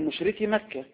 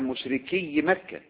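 First: The ya sound in the first word is single. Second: The ya sound in the first word is doubled. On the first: The speaker calls it right. "بتقول مشركي مكة" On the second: The speaker calls it wrong. "ما بتقولش مثلا مشركي مكة"

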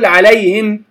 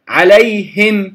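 First: The h sound is weak and nearly lost. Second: The h sound is clearly pronounced. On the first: The speaker calls it wrong. "لا أقول عليهم" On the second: The speaker calls it right. "فأقول عليهم صراط الذين أنعمت عليهم غير المغضوب عليهم"

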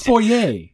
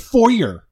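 First: The word is said a non-American way. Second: The word is said the American way. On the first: The speaker calls it right. "It's foyer" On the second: The speaker calls it wrong. "Then they say foyer"

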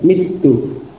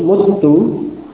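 First: The first vowel is an 'i' sound. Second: The first vowel is a 'u' sound. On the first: "mengkasrah pada fa' kalimah tadi" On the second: "mengubah harakat fa' kalimah menjadi dhammah"

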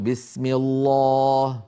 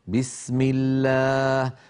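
First: The long vowel is thick and heavy. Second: The long vowel is thin and light. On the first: The speaker calls it wrong. "ولا يصح أن نقول" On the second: The speaker calls it right. "لاحظتم كيف الألف في بسم الله مرققة؟"

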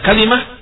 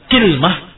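First: An a follows k and an i follows l. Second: An i follows k and no vowel follows l. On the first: "difathahkan di kafnya dan dikasrahkan lamnya" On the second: "dikasrahkan kafnya atau ... bersama sukunul lam"

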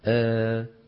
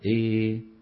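First: The vowel is slightly fronted toward e. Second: The vowel is strongly fronted toward i. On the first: "ومنهم من يميلها إمالة صغرى" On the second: "ومنهم من يميلها إمالة كبرى"

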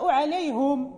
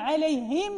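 First: The h is followed by a u vowel. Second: The h is followed by an i vowel. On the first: "يمكن أن تضم في القرآن، يعني مثلا عليهم نقرأ عليهم" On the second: "كل هاء يعني مكسورة"

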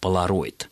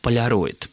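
First: The L is harder, in a Western manner. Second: The L is soft, as in Russian polyarny. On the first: This is a newer form borrowed from Western usage. The speaker calls it wrong. "стали произносить это слово на западный манер" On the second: This is the older, Russian-style form of the word. The speaker calls it right. "по аналогии с словами «полярный», «полярник», «полюс» писалось и произносилось только как «поляроид»"

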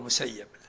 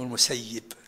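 First: The name ends with the vowel a: al-Musayyab. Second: The name ends with the vowel i: al-Musayyib. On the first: This form means abandoned, which the bearer disliked. The speaker calls it wrong. "لا تقول المسيب لأنه ما يرضى بهذا" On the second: This is the form the bearer accepted. The speaker calls it right. "والبعض المحدثين يقول اسمه المسيب"

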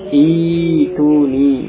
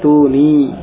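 First: The word starts with a long 'i' vowel. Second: The word is linked with a glottal stop. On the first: It is read at the start of the verse. "kalau dia dibaca di awal ayat, di awal kalimat, maka itu langsung diubah dalam bacaan dengan iya" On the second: It is joined to the previous word. "kalau dia bersambung dengan ayat yang sebelumnya, dengan kata yang sebelumnya, maka dia kembali ke hamzahnya"

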